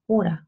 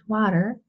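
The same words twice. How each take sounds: First: It is said in an Australian English accent. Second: It is said in an American English accent. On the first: "and Australian English" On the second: "American English"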